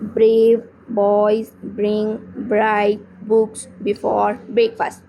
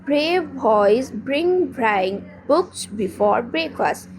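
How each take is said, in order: First: It is read with stops between the words. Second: It is read smoothly without stops between words. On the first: The speaker calls it wrong. "इसमें रुकना नहीं है, like ऐसे नहीं पढ़ना" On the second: The speaker calls it right. "The correct way is"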